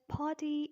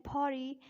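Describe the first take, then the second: First: British "party" with a clear T; British-accent demo of party. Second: American "party" with the T softened to a tap; American-accent demo of party. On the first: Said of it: "in British accent". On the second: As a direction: say party the American way, nearly "pari". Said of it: "American accent". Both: Shown as a demonstration.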